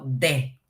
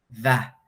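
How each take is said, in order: First: It starts with a hard Spanish-like d sound. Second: It starts with air pushed past tongue and teeth. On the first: The speaker calls it wrong. "no de" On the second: The speaker calls it right. "Tienen que hacer este sonido de T H con los dientes, el paladar y la lengua"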